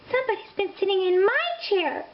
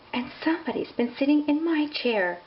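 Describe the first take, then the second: First: It is cried out upset. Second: It is sighed softly.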